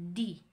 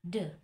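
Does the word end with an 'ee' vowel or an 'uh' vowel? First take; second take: ee; uh. First: The word ends with an 'ee' vowel. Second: The word ends with an 'uh' vowel. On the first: The next word starts with a vowel. "If the letter after it is a vowel, then the sounds become D" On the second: The next word starts with a consonant. "if the letters after it is consonant, then the sounds become D"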